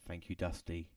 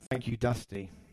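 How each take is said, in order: First: It is said in a solemn, mournful tone. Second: It is said in a casual, ordinary tone.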